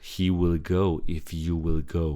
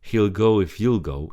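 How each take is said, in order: First: Each will is said as a full word. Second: Each will is shortened into the word before. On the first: The speaker calls it wrong. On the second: The speaker calls it right. "always use the short form, the contraction"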